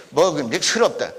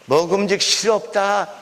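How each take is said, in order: First: "싫었다" said as 스럽다, with an eu vowel; lower-pitched "싫었다" as seu-reop-da; rejected modern pronunciation. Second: "싫었다" said as 시롭다, with an i vowel; old "sir" pronunciation. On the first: Lecturer showing listeners the wrong form, "싫었다" as seu-reop-da. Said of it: "싫었다가 뭐예요? 그 말도 아니야". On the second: Lecturer showing listeners the proper old form, "싫었다" as si-rop-da. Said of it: "싫었다 그래야 돼". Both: Shown as a demonstration.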